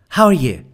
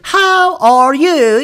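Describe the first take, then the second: First: It is said quickly, words run together. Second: It is said slowly, each word separate. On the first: The speaker calls it right. "it's very fast. It's something like this. Listen" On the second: The speaker calls it wrong. "They don't say, how are you? It's not that"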